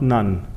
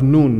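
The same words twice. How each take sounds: First: The vowel sounds like 'sun'. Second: The vowel does not sound like 'sun'. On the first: The speaker calls it wrong. "not Nun. ... His mother was not a nun" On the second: The speaker calls it right. "it's the son of Nun"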